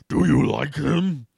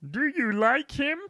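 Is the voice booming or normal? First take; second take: booming; normal. First: It is said in a loud booming voice. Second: It is said in a normal voice.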